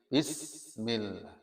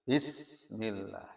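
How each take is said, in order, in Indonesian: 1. Bunyi s mengalir keluar bersama napas. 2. Bunyi s mengalir keluar bersama napas.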